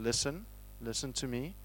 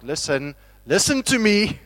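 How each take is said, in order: First: It is said in a relaxed, casual tone. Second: It is said in an urgent, serious tone.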